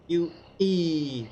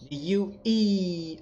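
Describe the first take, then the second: First: Put-on U E said slow and clear for a child; slow teaching. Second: The U E drawn out slow and clear; slow teaching. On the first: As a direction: spell out U E carefully. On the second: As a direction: stretch out The U E. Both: Shown as a demonstration. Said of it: "Say with me".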